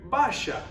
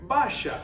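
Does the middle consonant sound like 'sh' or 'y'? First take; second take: sh; sh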